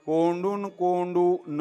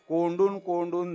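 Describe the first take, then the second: First: The final 'na' is split off as a separate word. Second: The final 'na' is joined to the word before. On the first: The breath is not held in. The speaker calls it right. "त्याचा उच्चार असा झाला पाहिजे" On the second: The breath is held in. The speaker calls it wrong. "आपण काय करतो"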